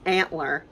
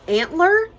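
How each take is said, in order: First: Said in the usual way. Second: "antler?" high and loud with a steep rise; questioning. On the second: Real, not acted. Searching for the name of the Gump's part, questioning "antler?". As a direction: try out "antler?" as an unsure question. Unsure of the word, then settles.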